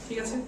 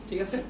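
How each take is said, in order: Both takes have the same delivery.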